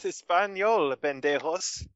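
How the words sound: It sounds cheerful and happy.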